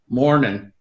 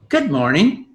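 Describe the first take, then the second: First: The greeting sounds flat and unfriendly. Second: The greeting sounds warm and friendly.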